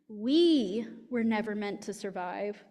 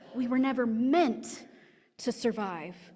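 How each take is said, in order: First: The word we carries the main stress. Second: The word meant carries the main stress. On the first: Those now living were not meant to survive, but their children may. "To put the emphasis on we" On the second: Oppressors work to keep the marginalized from surviving. "If the emphasis is on the meant"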